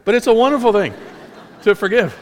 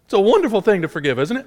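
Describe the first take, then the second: First: High, loud, quick, breaking into laughter; real laugh through the words; amused laughing. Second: High, quick, rising exclamation; high-pitched, hurried enthusiasm; voice going high. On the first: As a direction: laugh at your own squeaky slip while insisting. Amused at own voice slip. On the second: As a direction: let the voice leap up high unintentionally. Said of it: "my voice went so high". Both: Real, not acted.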